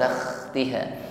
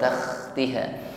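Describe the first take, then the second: First: The h is rough and rasping like kh. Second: The h is rough and rasping like kh.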